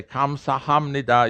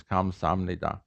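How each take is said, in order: First: "Kamsahamnida" with every syllable and the H sounded; strictly by the book, H kept in "Kamsahamnida"; strict, bookish. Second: Soft, low "Kamsamnida" without an H; real pronunciation. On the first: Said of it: "strict about it and say". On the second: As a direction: drop the H of "Kamsamnida", softly. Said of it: "is the way it's really pronounced". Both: Shown as a demonstration.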